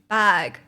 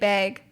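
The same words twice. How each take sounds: First: The vowel is the standard, non-Canadian one. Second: The vowel sounds Canadian. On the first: "I think the correct way to say is bag" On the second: "a lot of Canadian people say bag. Like bag"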